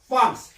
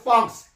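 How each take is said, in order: First: The r is a throaty, breathy h-like sound. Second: The r is a light Korean-style tap. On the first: This is how French speakers say it. "걔네들은 프랑스, 프랑, 프랑스, 프랑스 이렇게 여린 히읗 발음합니다" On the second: This is how Koreans say it. "우리는 프랑스 그러는데"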